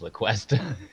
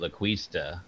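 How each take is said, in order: First: The vowel after 'Cu' is an 'eh' sound. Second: The vowel after 'Cu' is an 'ee' sound. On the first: The speaker calls it right. "and it was La Cuesta" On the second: The speaker calls it wrong. "he was pronouncing it La Cuista, and it was wrong"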